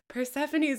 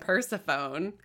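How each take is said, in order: First: The name is said in its standard pronunciation. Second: The name is said the way it looks written. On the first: This is how the name is actually said. The speaker calls it right. "I heard it and I was like, Persephone's way prettier" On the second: This is a guess from having only read it. The speaker calls it wrong. "I'd only ever read it"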